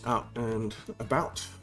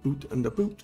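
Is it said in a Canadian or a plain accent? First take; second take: plain; Canadian. First: It is said in the speaker's plain accent. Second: It is said in a Canadian accent.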